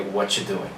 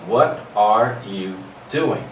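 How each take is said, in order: First: The words run together with a ch sound. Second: Each word is said separately and fully. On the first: "we just put it all together, we reduce it" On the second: "what you learned in your classroom"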